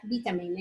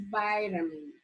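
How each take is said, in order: First: Vitamin said with "vee"; teacher demonstrating the other way to say vitamin; American vitamin. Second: Vitamin said as "VYE-ta-min"; teacher giving her preferred vitamin; vitamin with long I. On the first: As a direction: say vitamin with a short I sound. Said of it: "In case that you say vi". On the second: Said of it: "it's vitamin". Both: Shown as a demonstration.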